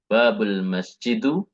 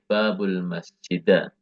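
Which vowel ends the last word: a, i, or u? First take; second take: u; a. First: The last word ends in a u vowel. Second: The last word ends in an a vowel. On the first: "Tidak boleh" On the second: "dan juga tidak boleh"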